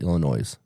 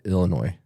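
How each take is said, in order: First: The final S is pronounced. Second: The final S is silent. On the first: This is how the southern half of the state says it. "The southern half calls it Illinois. They actually pronounce that, pronounce the S" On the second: This is how the northern half of the state says it. "the northern half of the state calls it Illinois"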